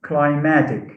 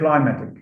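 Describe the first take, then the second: First: The stress is on the second syllable. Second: The stress is on the first syllable. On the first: The speaker calls it right. "It's climatic. ... stress is shifted from the first syllable to the second syllable" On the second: The speaker calls it wrong. "I've heard many teachers, I mean, school teachers, say"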